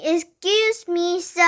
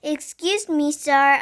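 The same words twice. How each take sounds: First: Higher, stretched-out call for attention; louder. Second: Said in the usual way. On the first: A narrator's reading. Pupil to old man who didn't hear, louder. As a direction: raise the voice to be heard. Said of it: "I said louder". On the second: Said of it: "I said".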